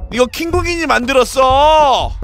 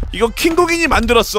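First: 이거 킹국인이 만들었어 shouted with stress on 만들었어. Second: Said in the usual way. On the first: Real, not acted.

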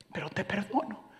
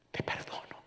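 First: Soft forgiveness. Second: "Te perdono" whispered, breath only; a wife whispering "Te perdono" to her husband; whispered forgiveness. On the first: Wife forgives, then repeats. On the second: Repeated as a whisper. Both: Retold or imitated.

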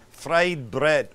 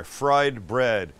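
First: "Fried bread" in a botched put-on accent; wrong accent. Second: Said in the usual way. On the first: Shown as a demonstration. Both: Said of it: "Oh, wrong accent".

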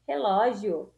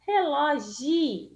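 First: Said in the usual way. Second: "relógio" broken off on a long "gi"; "relógio" said as relo-GI to show the syllable; stress on GI. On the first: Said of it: "G com I". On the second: Shown as a demonstration. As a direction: hold the "gi" in "relógio", dropping the final o. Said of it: "Nós temos o gi".

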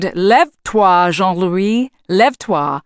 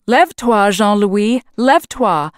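First: Slow, booming French wake-up call. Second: Put-on boy repeating. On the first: Lumberjack booming at his sleeping bunkmate, loud. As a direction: boom it out across the bunkhouse. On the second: Marvin echoing the wake-up call to the giant Jack. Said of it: "Marvin repeated". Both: A narrator's reading.

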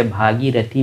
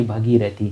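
First: भागीरथी with a long first aa, bhaa-gee-ra-thee; भागीरथी said as bhaagirathi, long aa at the start; say it right. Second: भगीरथी with a short first a, bha-gee-ra-thee; भगीरथी said as bhagirathi, short a at the start; wrong way. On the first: Teacher showing students the right way: भागीरथी with a long aa. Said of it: "जैसे भागीरथी बोलिए". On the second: Teacher showing students the wrong way: भगीरथी with a short a. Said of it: "ना कि भगीरथी". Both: Shown as a demonstration.

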